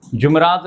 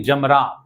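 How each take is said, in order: First: جمرات said as jumrat, with u in the first syllable; the mistaken jumrat, said with u; wrong pronunciation. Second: جمرات said as jamrat, with a short a in the first syllable; the right way, jamrat, with a; correct pronunciation. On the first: Teacher shows the pilgrims' common mistake, jumrat. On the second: Teacher gives pilgrims the correct form, jamrat. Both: Shown as a demonstration. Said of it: "جمرات نہیں، جمرات".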